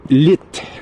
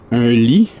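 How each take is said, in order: First: The final T is clearly pronounced. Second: The final T is silent.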